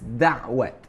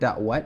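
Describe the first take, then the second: First: It is said with an Arabic-influenced sound. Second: It is said in the standard Malay way. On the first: The speaker calls it wrong. "I get influenced by the Arabic language" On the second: The speaker calls it right. "the proper pronunciation"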